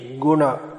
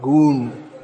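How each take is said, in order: First: A short vowel is sounded after the n. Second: The final vowel is dropped after the n. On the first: This is proper Sanskrit. The speaker calls it right. "these words should be Guna" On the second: This is everyday Hindi usage. The speaker calls it wrong. "not Gun"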